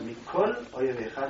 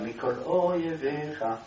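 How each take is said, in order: First: The two words are said as separate words. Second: The two words are joined as one word. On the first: The speaker calls it wrong. "לא ככה" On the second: The speaker calls it right. "זה נחשב כמילה אחת"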